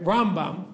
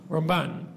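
First: RAMbam, first syllable punched; stress on first syllable. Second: RamBAN, weight on the last syllable; short Ram, firm BAN in Ramban; stress on second syllable. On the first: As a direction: hit RAM hard and let bam follow in Rambam. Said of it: "the stress on the first syllable". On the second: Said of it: "the stress on the second syllable". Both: Shown as a demonstration.

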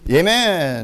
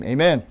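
First: Loud, drawn-out Amen; enthusiastic amen. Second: Said in the usual way. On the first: Real, not acted. Preacher rousing the congregation with an enthusiastic amen. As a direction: belt out a long, rousing amen. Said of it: "say amen and say it with enthusiasm".

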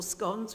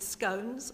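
First: "scones" rhyming with "gone"; short-o scones. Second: "scones" rhyming with "cones"; long-o scones. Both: Shown as a demonstration. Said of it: "whichever way you say it".

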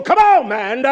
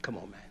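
First: Loud, high "come on, man"; rallying shout. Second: Low, soft "come on, man"; gentle coaxing. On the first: Boss spurring a workmate out there, rallying shout. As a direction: yell it to spur him on. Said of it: "I talk like that out there". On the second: Man reassuring a friend after a tough day, gentle coaxing. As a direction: coax him quietly, as a friend. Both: Acted.

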